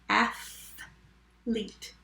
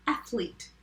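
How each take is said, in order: First: "Athlete" slowly, split in two with a long gap; syllable by syllable. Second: Said in the usual way. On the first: Shown as a demonstration. Teacher saying the word again, syllable by syllable. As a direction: stretch "Athlete" into two separate parts. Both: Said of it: "Let me say it again".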